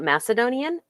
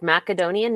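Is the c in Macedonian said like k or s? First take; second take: s; k. First: The c is said with a soft s sound. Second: The c is said with a hard k sound. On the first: The speaker calls it wrong. "not Macedonian" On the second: The speaker calls it right. "really pronounced Macedonian"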